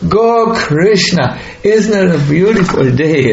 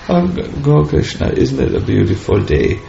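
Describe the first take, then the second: First: It sounds aware, warmly addressing the listener directly. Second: It sounds absent-minded, not really addressing anyone.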